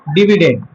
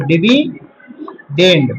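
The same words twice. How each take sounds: First: Said in the usual way. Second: Very slow, split DIVI - DEND; syllable by syllable. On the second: Shown as a demonstration. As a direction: break "dividend" in two with a long gap. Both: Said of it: "याद रखना इसको".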